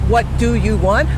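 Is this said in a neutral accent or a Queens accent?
neutral. It is said in a neutral accent.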